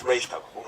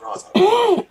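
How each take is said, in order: First: "Ra's" said as "raysh" in "Ra's al Ghul"; corrected name pronunciation. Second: "Ra's" said as "rahz" in "Ra's al Ghul"; rejected name pronunciation. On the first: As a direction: give "Ra's" a long AY and a SH ending. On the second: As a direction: give "Ra's" an open AH and a Z ending. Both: Shown as a demonstration. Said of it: "not Ra's al Ghul".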